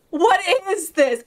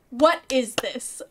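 First: Higher, wailed astonishment; escalating disbelief. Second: Slow, baffled question; measured disbelief. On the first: Streamer reeling after phasing through a fence, escalating disbelief. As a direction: wail the question in mock distress. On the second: Streamer baffled by passing through a fence, measured disbelief. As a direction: ask it slowly, word by word. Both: Pretend.

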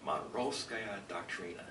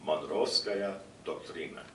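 First: Monroevskaya Doctrina in a flat American accent, slow. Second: Monroevskaya Doktrina said the Russian way, slowly, rolled and unreduced; Russian pronunciation. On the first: Lecturer repeats the Russian term for the audience in an American accent. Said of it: "I'll say it in an American accent". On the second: Lecturer gives the audience the Russian term, slowly in Russian pronunciation. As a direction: pronounce Monroevskaya Doktrina as a Russian would, slow and careful. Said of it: "The Russian term for this". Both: Shown as a demonstration.

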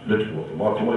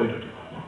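First: Said in the usual way. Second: لا تتوضأ repeated in a breathy whisper, much softer. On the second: Shown as a demonstration. (همس لا تتوضأ بصوت خافت جدا)

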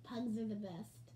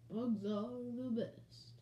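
First: Said in the usual way. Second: Slow, rounded, drawn-out croon. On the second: Shown as a demonstration. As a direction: stretch the vowels in a slow drawl. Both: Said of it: "I'll imitate my [name] voice".

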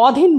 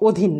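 First: অধীন with open "aw" first vowel; written-vowel pronunciation. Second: অধীন with closed "o" first vowel; pronounced with O. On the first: Teacher showing students the form to avoid, অধীন with open aw. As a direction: say অধীন as "aw-dhin". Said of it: "অধীন বলবো না". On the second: Teacher giving students the correct form, অধীন with closed o. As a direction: say অধীন as "o-dhin". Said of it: "ও দিয়ে উচ্চারণ করব". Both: Shown as a demonstration.

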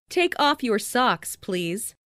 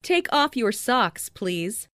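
The two takes are said the same way.

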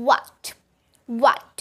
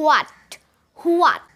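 First: "what" begun with rounded oo-like w, no h; what with oo glide. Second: "what" begun with a breathy h like ho; wrong ho sound. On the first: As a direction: model the correct "what" as oo-at. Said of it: "উ এর মতো একটা sound করব". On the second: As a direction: demonstrate the common mistake on "what". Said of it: "আসলে আমরা এটার উচ্চারণ করে থাকি হ". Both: Shown as a demonstration.

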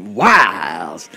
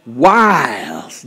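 First: Drawn-out Texas twang on the word; Texas accent. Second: Said in the usual way. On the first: Shown as a demonstration. Pastor has congregation echo wiles, Texas accent. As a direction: stretch it slowly in a Texas accent. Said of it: "say it with a Texas accent". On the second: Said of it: "say it".

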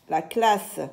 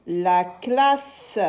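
First: Said in the usual way. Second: Lengthened, carefully separated sounds; drawn-out syllables. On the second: Shown as a demonstration. Teacher models a word for young readers, drawn-out syllables. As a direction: hold the sounds out for beginning readers.

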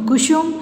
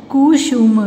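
First: Said in the usual way. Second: Kusum drawn out in parts; syllable by syllable. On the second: Shown as a demonstration. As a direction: sound out कुसुम. (कुसुम को तोड़-तोड़ कर) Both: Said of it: "फिर ये सारे बोलने".

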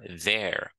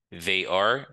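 First: "they're" as one syllable; "they're", the are reduced to an r; contracted form. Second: "They are" as two words, rising; uncontracted "They are", both syllables heard; full form. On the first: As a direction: merge they and are into "they're". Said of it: "Ça, c'est forme contractée". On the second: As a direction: sound are fully in "They are". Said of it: "ça, c'est forme complète". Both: Shown as a demonstration.

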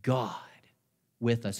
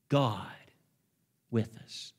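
First: Said in the usual way. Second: Barely voiced hush; hushed whisper. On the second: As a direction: breathe it almost without voice. Preacher repeats refrain, hushed take.

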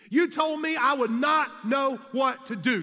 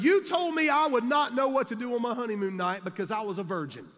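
First: Higher and louder pointed accusation; emphatic shout. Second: Said in the usual way. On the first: Retold or imitated. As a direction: drive the point home at him.

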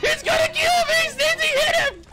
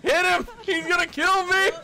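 First: Screamed high in panic; panicked shout. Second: High panicked cry; scared for your life. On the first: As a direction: shriek for help. Panicked shout while being chased. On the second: Panicked cry while being chased. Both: Real, not acted.

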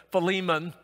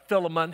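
First: Philemon said fuh-LEE-mun; alternative pronunciation. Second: Philemon said FILL-uh-mun; alternative pronunciation. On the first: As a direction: stress the middle of Philemon, with a long "ee". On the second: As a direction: stress the first syllable of Philemon, with a short "i". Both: Shown as a demonstration. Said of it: "however you want to pronounce that".

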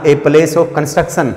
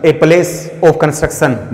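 First: Said in the usual way. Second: Very slow, each word apart; slow dictating voice; slow dictation. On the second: Shown as a demonstration. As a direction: spell it out slowly for notes. Dictates meaning slowly.

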